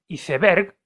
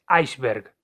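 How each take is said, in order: First: It is read with Spanish sounds, as spelled. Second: It is said with English sounds, like aisberg. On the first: This is how people usually say it. The speaker calls it wrong. "la gente dice iceberg" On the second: This is how the word really is. The speaker calls it right. "en realidad la palabra es iceberg"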